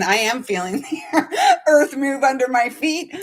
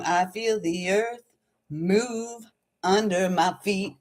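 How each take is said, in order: First: Spoken through a laugh. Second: Softly sung, drawn-out line; singing. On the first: Real, not acted. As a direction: say it plainly but break into giggles midway. Spoken restatement of the sung line. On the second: Retold or imitated. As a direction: sing it slowly, stretching the words. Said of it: "I was singing that song".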